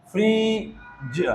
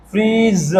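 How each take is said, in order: First: फ्रीज drawn out softly, ending in ज; slow quiet Fridge. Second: Said in the usual way. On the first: Shown as a demonstration. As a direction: stretch फ्रीज gently. (फ्रीज धीरे और धीमे से) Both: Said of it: "ज के लिए हम क्या लिखेंगे".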